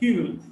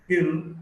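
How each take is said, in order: First: Both words are said in full. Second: The two words are run together, contracted.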